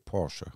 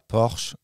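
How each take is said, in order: First: The name is pronounced the original German way. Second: The name is pronounced the French way. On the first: The speaker calls it right. "c'est Porsche ... la prononciation originelle du mot" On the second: The speaker calls it wrong. "C'est pas Porsche"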